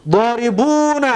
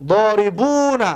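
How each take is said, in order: Both takes have the same delivery.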